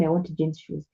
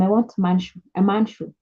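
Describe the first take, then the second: First: Said in the usual way. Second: "I want man shoe" in plain level voice; simple English. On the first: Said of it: "don't go telling them". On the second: Shown as a demonstration. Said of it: "Tell them".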